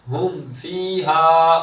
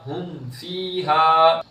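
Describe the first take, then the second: Both takes have the same delivery.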